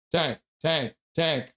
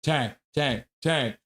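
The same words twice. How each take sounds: The two takes are said the same way.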